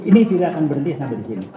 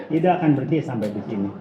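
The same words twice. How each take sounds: First: Fast emphatic. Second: Fast, softer repeat. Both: Real, not acted.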